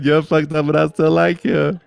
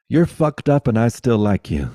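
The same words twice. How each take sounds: First: Higher and louder, joyful cry; loud proclaiming. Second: Title read through a laugh. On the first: Shouting the friend's title out to the listeners, loud and high. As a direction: call it out to the whole room. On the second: Telling the listeners a friend's book title, laughing. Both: Real, not acted.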